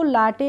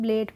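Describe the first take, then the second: First: The vowel is an open 'ah' sound. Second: The vowel is an 'ay' sound. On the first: The speaker calls it wrong. "इसको लाटे नहीं पढ़ेंगे" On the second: The speaker calls it right. "अब लेट पढ़ेंगे"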